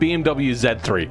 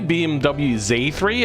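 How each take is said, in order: First: The letter Z is pronounced 'zed'. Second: The letter Z is pronounced 'zee'. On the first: The speaker calls it right. "like a hard stop to it. It just sounds more impactful" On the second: The speaker calls it wrong. "it just sounds a little bit weak"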